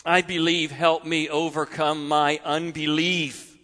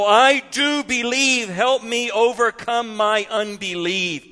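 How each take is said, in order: First: Lower, soft and sincere; quiet sincere prayer. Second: Raw honest plea. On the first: Preacher echoing the father's prayer for every hurting parent, softly. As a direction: say it as a humble prayer. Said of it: "hope of every hurting parent". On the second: Father confessing his doubt to Jesus, raw and pleading. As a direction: cry out the confession. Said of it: "raw honesty in those words". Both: Acted.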